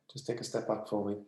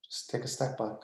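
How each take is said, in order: First: Soft request. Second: Whispered plea. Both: Real, not acted.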